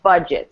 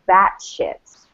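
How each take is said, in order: First: The first syllable sounds like 'bud'. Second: The first syllable sounds like 'bat'. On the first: The speaker calls it right. "it's pronounced budget, so the first syllable has the stress" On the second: The speaker calls it wrong. "He would say like, this is how we pronounce it"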